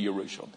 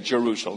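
First: The word begins with a Y sound. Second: The word begins with a J sound. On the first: This is how the Israelites say it. "They pronounce the Y instead of the J" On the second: This is how English speakers say it. "We say Jerusalem"

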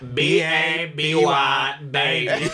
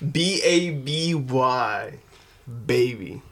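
First: It is spoken in a put-on singer's voice. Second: It is spoken in a plain, ordinary voice.

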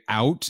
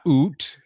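First: The vowel glides like 'ow'. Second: The vowel sounds like a long 'oo'. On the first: The speaker calls it right. "We say out" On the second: The speaker calls it wrong. "not oot"

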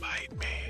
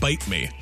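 First: It is said at normal, quieter volume. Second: It is said louder, with more volume.

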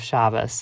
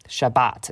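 First: It ends in s, without final-syllable stress. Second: It ends in t, stressed on the last syllable. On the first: This is perceived as more feminine and weak. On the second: This is perceived as more masculine and stronger.

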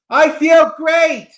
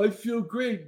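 First: It is said with lively enthusiasm. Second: It is said flatly, without enthusiasm.

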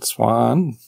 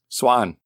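First: It is said hesitantly, without confidence. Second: It is said firmly, with confidence.

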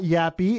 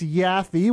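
First: The middle consonant is a p sound. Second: The middle consonant is an f sound. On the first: The speaker calls it wrong. "It's not Yappy" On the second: The speaker calls it right. "It's Yaffee. Y-A-F-F-E"

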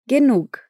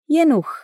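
First: The word ends in a breathy k sound. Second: The word ends in a ch sound. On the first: "tem um som de K, porém com um soprinho no final" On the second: "O G no fim da palavra vira CH"

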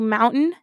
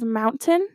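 First: The word is articulated loosely, with sounds reduced. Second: The word is articulated crisply, with every sound clear. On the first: This is how people from the speaker's region say it. "where I'm from, we say mountain" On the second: This is how people elsewhere say it. "instead of mountain"

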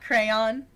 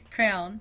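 First: The word is said as two syllables. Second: The word is said as one syllable. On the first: "Not crayon" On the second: "Because I say it like that"

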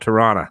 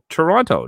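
First: The second T is dropped. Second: The second T is clearly pronounced. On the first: The speaker calls it right. "There's no second T" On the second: The speaker calls it wrong. "you know you're saying it wrong"

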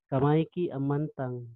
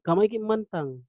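First: The phrase is said slowly and carefully. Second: The phrase is said at a normal pace.

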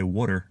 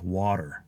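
First: It sounds like 'wooder', with a d-like middle. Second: It is said with a standard vowel and t. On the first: "that is a Philly thing because a lot of us say water" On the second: "instead of water"

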